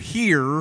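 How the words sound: It is said with a strong American R.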